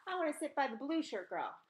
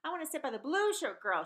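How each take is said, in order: First: Demanding. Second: Higher, louder insistent demand. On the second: Maria demands to sit beside the blue shirt girl, louder. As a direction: insist on it, pushing harder. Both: Acted. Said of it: "she demanded".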